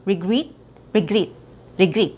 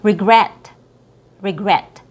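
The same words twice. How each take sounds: First: "regret" as ree-GREET, tight vowel; long E sound. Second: "regret" as re-GRET; short E. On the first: Teacher showing what to avoid, long E and foreign R. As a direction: mispronounce "regret" with EE. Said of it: "a long E sound". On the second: Teacher modelling the word, short E. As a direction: open EH at the end of "regret". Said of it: "not regret". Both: Shown as a demonstration.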